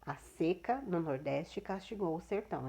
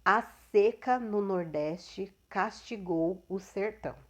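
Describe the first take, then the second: First: Said in the usual way. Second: "seca" with closed e, said slowly and clearly; teacher models the noun "seca" for students, slow and clear; slow model sentence. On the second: Shown as a demonstration. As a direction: read the example slowly, leaning on "seca" with a closed e. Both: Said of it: "um substantivo e a pronúncia diferenciada".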